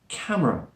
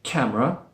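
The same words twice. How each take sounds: First: The middle vowel is very slightly heard. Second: The middle vowel is dropped completely. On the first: "There's a very slight schwa sound in there" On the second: "instead of removing it completely"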